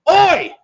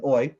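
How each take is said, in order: First: High, loud yell of Oi. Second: A proper Australian Oi, flat and short. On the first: Retold or imitated. Rhea Ripley interrupting, a loud high Oi shout. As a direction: bark it out across the arena. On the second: Shown as a demonstration. Correcting to how Australians say it, Australian accent. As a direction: say Oi like a real Aussie. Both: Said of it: "The proper Australian".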